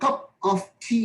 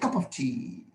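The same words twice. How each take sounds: First: Every sound in the phrase is said clearly. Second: Sounds in the phrase are dropped and run together.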